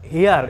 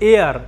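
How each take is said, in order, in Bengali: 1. শব্দটি একটি স্পষ্ট H ধ্বনি দিয়ে শুরু হয়। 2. শব্দটি সরাসরি একটি স্বরধ্বনি দিয়ে শুরু হয়। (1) "এটাকে হেয়ার বলবো না" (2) "এটার উচ্চারণ হচ্ছে এয়ার। এইচ is silent"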